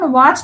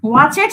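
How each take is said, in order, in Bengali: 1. এই শেষের অংশটা বাড়তি শব্দাংশ ছাড়াই শব্দের সঙ্গে মিশে যায়। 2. এই শেষের অংশটা একটা বাড়তি শব্দাংশ হিসেবে উচ্চারিত হয়। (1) "আমরা যখন ওয়াচড বলছি" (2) "ওয়াচেড তো বলছি না"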